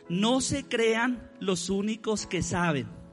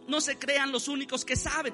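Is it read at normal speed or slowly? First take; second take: slowly; normal. First: It is read slowly and deliberately. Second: It is read at normal speed.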